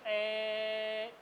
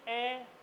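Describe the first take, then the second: First: The vowel is drawn out for longer. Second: The vowel is said at ordinary length.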